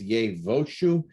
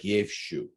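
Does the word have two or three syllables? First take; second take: three; two. First: The word is said with three syllables. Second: The word is said with two syllables. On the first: The speaker calls it right. "but this is Yevoshu" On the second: The speaker calls it wrong. "I know it looks like Yevshu"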